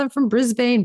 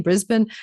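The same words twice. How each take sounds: First: "Brisbane" with a full "bane" ending; Brisbane as spelt. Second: "Brisbane" with a reduced ending, BRIZ-bun; Aussie pronunciation. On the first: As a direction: say "Brisbane" as BRIZ-bayn, lightly higher. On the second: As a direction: say "Brisbane" the Australian way, as BRIZ-bin. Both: Retold or imitated. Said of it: "she's got this Aussie accent".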